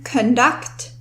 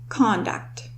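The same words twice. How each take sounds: First: The stress is on the second syllable. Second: The stress is on the first syllable. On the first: It is the verb meaning to lead or organize. "the stress in this word is on the second syllable" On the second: It is the noun meaning someone's behavior. "as opposed to"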